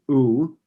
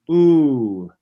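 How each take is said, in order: First: The vowel is cut off short. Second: The vowel is held long and smooth. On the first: "which we're used to saying, just in clipping sound" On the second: "make that a little more legato"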